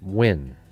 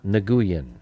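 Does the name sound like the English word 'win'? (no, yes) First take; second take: yes; no. First: The name sounds like the word win. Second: The name does not sound like win. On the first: The speaker calls it right. "It's Win" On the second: The speaker calls it wrong. "not Nguyen, as people like to say"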